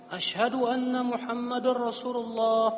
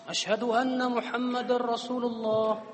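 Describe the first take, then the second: Both takes have the same delivery.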